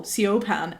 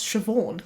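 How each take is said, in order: First: Siobhan misread as see-oh-ban; mispronunciation. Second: Siobhan said as shuh-VAWN; correct pronunciation. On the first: Retold or imitated. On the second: Shown as a demonstration. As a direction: say Siobhan with a "sh" start and a "v". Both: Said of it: "I didn't know how to pronounce Siobhan".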